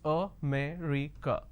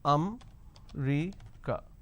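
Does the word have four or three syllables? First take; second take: four; three. First: The word is said with four syllables. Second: The word is said with three syllables. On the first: The speaker calls it right. "the correct pronunciation is... So there are four syllables" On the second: The speaker calls it wrong. "they pronounce this as um-ri-ka. So they drop a syllable"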